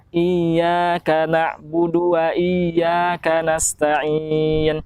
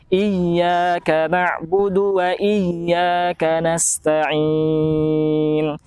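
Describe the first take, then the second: First: Iyyaka with a thin single ya, iaka; wrong weak ya. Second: Iyyaka with a pressed, emphatic yy; firm doubled ya. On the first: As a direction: skip the doubled ya of iyyaka. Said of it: "Jangan sampai seperti ini". (contoh salah, ya tidak tegas) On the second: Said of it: "harus lebih dipertegas lagi huruf ya". (contoh benar, ya dipertegas) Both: Shown as a demonstration.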